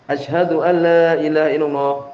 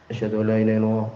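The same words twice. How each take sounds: First: The phrase is said in a loud, raised voice. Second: The phrase is said in a quiet, low voice. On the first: "Kemudian baru keras" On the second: "Kemudian setelah itu bilang dengan pelan"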